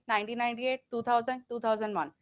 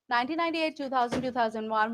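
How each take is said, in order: First: Each number is separated by a clear pause. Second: The numbers run together with no pauses. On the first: The speaker calls it wrong. "This is pause in between" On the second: The speaker calls it right. "There is no pause between the words or the numbers"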